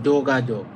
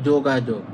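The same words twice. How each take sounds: Both takes have the same delivery.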